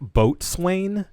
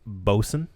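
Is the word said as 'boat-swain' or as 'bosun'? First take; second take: boat-swain; bosun. First: It is said as spelled, 'boat-swain'. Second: It is said in the short form, 'bosun'. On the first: The speaker calls it wrong. "I know it looks like Boatswain" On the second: The speaker calls it right. "it's actually pronounced Bosun"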